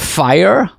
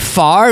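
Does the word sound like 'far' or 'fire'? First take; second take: fire; far. First: The word sounds like 'fire'. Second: The word sounds like 'far'. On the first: "instead of fire" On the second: "They say far instead of fire"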